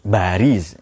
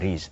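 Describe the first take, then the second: First: The word begins with a B sound. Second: The word begins with a P sound.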